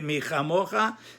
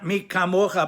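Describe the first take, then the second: First: The middle consonant is a soft kh. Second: The middle consonant is a hard k. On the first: The speaker calls it wrong. "you make it a soft kaf" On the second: The speaker calls it right. "not mikamocha"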